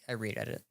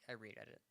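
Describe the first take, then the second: First: The voice is shaped by an effects chain. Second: The voice is raw, with no effects applied. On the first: "Then we'll turn it on" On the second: "I'll do my audio only"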